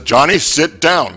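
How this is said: It is said in a firmer tone.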